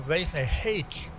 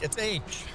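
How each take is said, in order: First: The letter name starts with an h sound. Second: The letter name starts without an h sound. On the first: This is how some British speakers say it. "they're pronouncing the H. Even the letter H" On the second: This is how the speaker says it. "I'm like, it's H"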